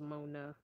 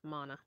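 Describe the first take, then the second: First: The name does not rhyme with Donna. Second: The name rhymes with Donna. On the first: The speaker calls it wrong. "I thought it was Mona, but I guess I messed it up" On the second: The speaker calls it right. "Like Donna"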